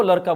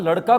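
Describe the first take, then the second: First: लड़का pronounced "laraka". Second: Said in the usual way. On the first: Retold or imitated. Teacher stressing only one word changes, लड़का with r. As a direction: tap an r in लड़का instead of ड़. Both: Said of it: "ड के स्थान पर र".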